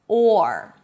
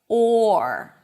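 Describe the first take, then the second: First: The full vowel is said with a clear R. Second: The full vowel is said with a clear R.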